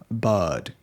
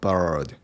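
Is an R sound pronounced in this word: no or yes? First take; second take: no; yes. First: The word is said without an R sound. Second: The word is said with an R sound. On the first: The speaker calls it right. "but bird" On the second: The speaker calls it wrong. "not bird"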